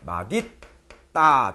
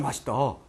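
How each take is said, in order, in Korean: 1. 가운데 자음은 d 소리처럼 들려요. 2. 가운데 자음은 s 소리처럼 들려요. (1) "대표마 되죠? 마딧다" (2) "근데 이거 이렇게 발음하는 사람이 없어요. ... 이렇게 합니다"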